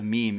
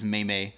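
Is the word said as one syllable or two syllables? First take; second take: one syllable; two syllables. First: It is said as one syllable, rhyming with team. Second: It is said as two syllables, like may-may. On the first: The speaker calls it right. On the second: The speaker calls it wrong.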